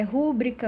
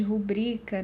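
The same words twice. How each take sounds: First: "rúbrica" stressed on RÚ; stress shifted early. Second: "rubrica" stressed on BRI; penultimate stress. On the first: Teacher explaining prosody errors, "rúbrica" stressed on RÚ. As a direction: hit the first syllable of "rúbrica". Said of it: "ao invés de rubrica". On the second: Teacher explaining prosody, "rubrica" stressed on BRI. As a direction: lean on the middle BRI of "rubrica". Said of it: "ao invés de". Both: Shown as a demonstration.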